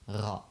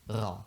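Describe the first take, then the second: The two takes are said the same way.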